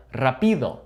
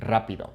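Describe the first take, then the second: First: Rapido stressed on the "pi", as if it had no accent mark; "rapido" wrongly stressed as ra-PI-do; stress on the middle syllable. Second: Rapido stressed on the opening "ra"; "rapido" correctly stressed as RA-pi-do; stress on the first syllable. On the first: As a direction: say "rapido" with the weight on the second syllable. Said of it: "this would sound like". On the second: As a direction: say "rapido" with the weight up front on "ra". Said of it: "because we have that accent". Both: Shown as a demonstration.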